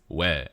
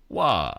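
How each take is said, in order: First: It is said in standard Korean. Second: It is said in Busan dialect.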